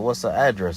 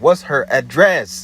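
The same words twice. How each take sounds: First: It is said at a normal, calm volume. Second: It is said loudly, almost yelled. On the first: "I said it normally" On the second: "I yelled, I kind of like, you know, amped up my voice"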